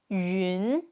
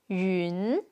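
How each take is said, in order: First: The syllable is said with its tone. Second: The syllable is said with its tone.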